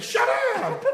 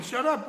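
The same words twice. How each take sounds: First: Very high, loud yell with a laugh. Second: Said in the usual way. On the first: Retold or imitated. KGB man yelling at Anant Ashanti, laughing loud yell. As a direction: scream it at him. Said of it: "He yelled at him". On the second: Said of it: "then he said".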